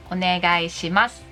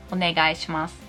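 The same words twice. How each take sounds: The two takes are said the same way.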